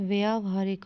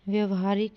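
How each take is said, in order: First: The first vowel is long 'aa'. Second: The first vowel is short 'a'. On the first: The speaker calls it right. "होगा" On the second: The speaker calls it wrong. "नहीं"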